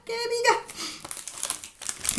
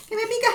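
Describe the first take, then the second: First: Slow, soft and strained, sneeze held in; about to sneeze. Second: High tickled cry, sneeze building; about to sneeze. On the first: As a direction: squeeze it out, holding back a sneeze. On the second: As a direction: complain of the itch mid-sneeze. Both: Real, not acted. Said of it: "Voy a estornudar".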